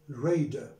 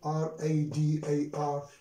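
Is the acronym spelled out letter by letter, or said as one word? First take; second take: one word; spelled out. First: It is said as a single word. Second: It is spelled out letter by letter. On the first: The speaker calls it right. "it is pronounced as what? As one word" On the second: The speaker calls it wrong. "We do not say R-A-D-A-R"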